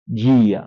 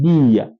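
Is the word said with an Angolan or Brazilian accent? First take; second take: Brazilian; Angolan. First: It is said with a Brazilian accent. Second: It is said with an Angolan accent.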